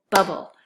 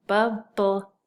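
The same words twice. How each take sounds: First: Said in the usual way. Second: "bubble" broken into bub, bull; split syllables. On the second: Shown as a demonstration. Teacher blending two syllables, first held apart. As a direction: say "bubble" in two separate beats. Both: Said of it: "Just one syllable".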